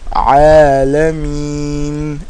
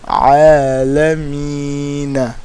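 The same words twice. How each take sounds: First: The word ends without a final vowel. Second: The word ends with a short final vowel. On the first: The reading pauses at the end of the verse. "we stopped here. We said" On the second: The reading runs on into the next verse. "instead of"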